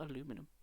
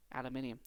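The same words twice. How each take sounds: First: Aluminum said the American way, a-LOO-mi-num, four syllables; soft American aluminum, four syllables; American pronunciation. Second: Aluminium said the British way, al-yoo-MIN-ee-um, five syllables; soft British Aluminium, five syllables; British pronunciation. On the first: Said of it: "Aluminium, not aluminum". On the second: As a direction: say Aluminium with the stress on MIN and an extra i. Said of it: "'cause I'm British". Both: Shown as a demonstration.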